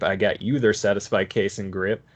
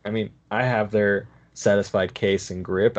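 First: "you" stressed with a rising end. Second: "have" lifted with a rising end; stress on have. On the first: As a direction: lean on "you", let the line rise. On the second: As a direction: lean on "have", let it rise. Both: Real, not acted. Repeated list with shifting stress.

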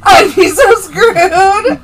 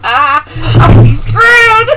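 First: High, loud, laughing cry on "so". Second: Loud exclamation. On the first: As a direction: wail "so screwed" through laughter. Repeats the line, stressing so. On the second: Laughing dread at the joke. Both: Real, not acted.

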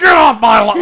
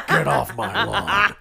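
First: Loud, higher mock shout; screamed imitation. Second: Slow, drawn-out growling threat; Clint Eastwood impression. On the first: Grandfather shouting at kids in the front yard, mock scream. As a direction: holler it as the grandfather yelling at kids. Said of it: "screaming at us like". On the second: Grandfather warning kids like in Gran Torino, slow impression. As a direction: imitate a menacing movie old man, unhurried. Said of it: "Clint Eastwood".

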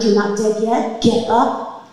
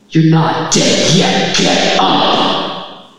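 First: Said in the usual way. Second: Loud, slow, commanding voice from above; booming heavenly voice. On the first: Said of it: "in that split second that I heard". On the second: Retold or imitated. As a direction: thunder it down like a god. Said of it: "a voice that, like, vibrates through your entire body".

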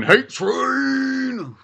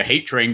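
First: High, drawn-out whooping call; mock train cry. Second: Said in the usual way. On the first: Host hypes a pile-on of hate, high playful cry. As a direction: wail it out like a train whistle.

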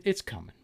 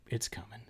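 First: Said in the usual way. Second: Hushed, whispered promise; teasing whisper. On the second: Pretend. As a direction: whisper it like a secret tease. Hushed teaser of next season.

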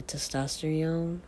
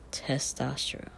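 First: Testosterone with the R dropped, ending like "-tee-yone"; old mispronunciation. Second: Testosterone with a clear TES and an R before the ending; corrected pronunciation. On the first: Vlogger showing how they used to say it, mispronounced. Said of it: "I used to not know how to say it". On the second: Vlogger correcting their own old slip, careful pronunciation. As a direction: say "testosterone" carefully as tes-TOS-ter-one. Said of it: "No, it's tes". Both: Shown as a demonstration.

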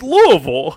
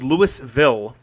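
First: Louisville said LOO-uh-vul, pitched up; local pronunciation. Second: Louisville said slowly as LOO-iss-vill; spelling pronunciation. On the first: Host teaches how locals say it, Louisville as LOO-uh-vul. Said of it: "the pronunciation of Louisville". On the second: Host explains the spelling, Louisville as LOO-iss-vill. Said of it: "it's spelled Louisville". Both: Shown as a demonstration.

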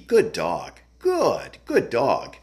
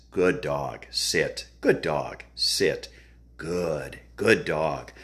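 First: Higher-pitched, lighter praise for a dog; pleasing praise voice. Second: Low-pitched commands and praise; dog-training drill. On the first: Trainer showing clients how to praise a dog, pleasing higher voice. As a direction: lift the pitch high on "good", then swoop down. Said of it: "you're giving that voice inflection". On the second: Trainer drilling sit then praising the dog, low measured voice. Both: Shown as a demonstration.

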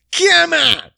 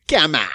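First: High, louder hype call; loud come on. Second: Said in the usual way. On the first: Shown as a demonstration. Host hyping the listeners with a high, loud come on. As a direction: pump the crowd up on come on.

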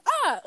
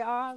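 First: High, short mock yelp; imitated "ah". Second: Said in the usual way. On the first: Shown as a demonstration. Showing cohost how Carter says it, high imitated yelp. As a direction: pitch the "ah" way up like his. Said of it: "The way he says". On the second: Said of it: "is how I try to say".

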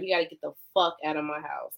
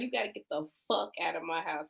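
First: Said in the usual way. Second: Hushed, whispered eviction order; retold whisper. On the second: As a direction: drop to a mock-menacing whisper. Retells the eviction line, now hushed.

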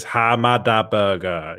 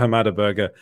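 First: Slow, drawn-out catchphrase voice; mimicked catchphrase. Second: Said in the usual way. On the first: Host reading Prince Zodiac's chat message, drawn-out mimicry. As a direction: stretch each syllable like the catchphrase clip. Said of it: "Prince Zodiac says".

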